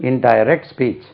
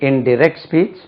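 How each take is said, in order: No difference in how they are said.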